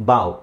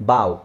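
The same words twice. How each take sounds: No difference in how they are said.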